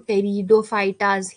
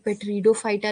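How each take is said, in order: First: The initial P sound is silent. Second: The initial P sound is pronounced. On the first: The speaker calls it right. "इसमें P silent होता है" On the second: The speaker calls it wrong. "ये पेट्रीडोफाइटा नहीं होता है"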